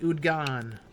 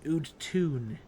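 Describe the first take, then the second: First: The middle consonant is a g sound. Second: The middle consonant is a t sound. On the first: This is how the spelling suggests it is said. "You'd think that'd be pronounced like Udgan" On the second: This is how the character actually said it. "she she pronounced it Udtun"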